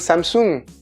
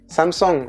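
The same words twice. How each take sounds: First: It is said with a French pronunciation. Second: It is said with a Korean pronunciation. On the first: The speaker calls it wrong. "On prononce encore super mal" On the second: The speaker calls it right. "c'est Samsung en Corée"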